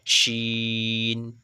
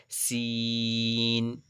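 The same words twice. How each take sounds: First: শিন with a full "sh" and long "ee"; thick "sh". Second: সিন with thin hiss and very long "ee"; light front-tongue s, then hold the vowel of সিন. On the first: Teacher models big sheen, শিন thick and drawn out. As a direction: curl the tongue back for a thick, held শিন. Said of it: "আওয়াজটা একটু মোটা হবে". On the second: Teacher models small seen, সিন thin and drawn out. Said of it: "একদম slight". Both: Shown as a demonstration.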